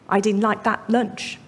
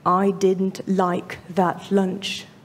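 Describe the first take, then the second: First: The sentence is said quickly. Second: The sentence is said slowly and heavily. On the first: The speaker calls it right. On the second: The speaker calls it wrong. "Sounds tremendously heavy"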